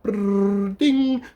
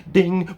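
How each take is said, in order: First: A whirring brrr, then a very high ding; mocking a clerk who mimes a microwave; microwave noise. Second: A quick high ding, like a clerk's chime; mock ding. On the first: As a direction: imitate a microwave whir and chime. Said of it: "And then they're just like". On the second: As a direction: chirp out a bright ding. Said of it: "they just go like".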